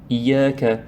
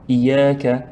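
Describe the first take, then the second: Both takes have the same delivery.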